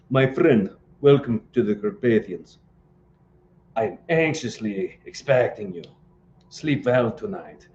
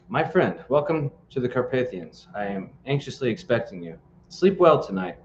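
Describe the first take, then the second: First: It is read in a Transylvanian accent. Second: It is read in the speaker's plain voice.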